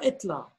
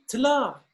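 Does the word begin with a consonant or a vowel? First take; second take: vowel; consonant. First: The word starts with a vowel before the consonant. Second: The word starts directly with a consonant. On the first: The speaker calls it wrong. "et non pas" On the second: The speaker calls it right. "On dit"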